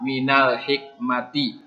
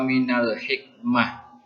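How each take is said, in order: First: The last word ends with a t and vowel. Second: The last word ends with a soft h sound. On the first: The reading continues past this word. "dibaca seperti huruf ta" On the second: The reading stops at this word. "Kalau mau berhenti di situ"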